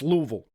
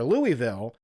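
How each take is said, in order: First: It is said in a local Kentucky accent. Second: It is said with a non-local pronunciation. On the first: A local corrects the name. The speaker calls it right. "with their accent and be like, it's Louisville" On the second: An outsider says the name. The speaker calls it wrong. "if you're up in Kentucky and you say Louisville"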